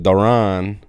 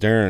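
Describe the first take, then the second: First: The name is said like Duran. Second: The name is said like Darren. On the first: This is how the name's owner says it. "but he pronounces it Duran" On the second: This is how the listener expected the name to sound. "I thought it was Darren"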